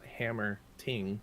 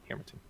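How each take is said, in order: First: It is split into two separate words. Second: It is said as one joined word. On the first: The speaker calls it wrong. "it's not hammer ting, two words" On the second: The speaker calls it right. "One word"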